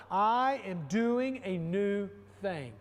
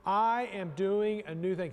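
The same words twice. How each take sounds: First: Slow, emphatic declaration; said loud. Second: Said in the usual way. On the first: Shown as a demonstration. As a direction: proclaim it out loud to the congregation. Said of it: "Say it loud". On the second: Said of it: "Say it with me".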